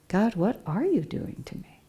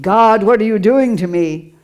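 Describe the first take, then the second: First: It sounds like a genuinely curious question. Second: It sounds like an angry, accusing complaint. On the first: The speaker sincerely wants to understand what is happening. "the quest is when you start saying, what the heck is going on here?" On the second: The speaker blames God for the suffering. "instead of saying"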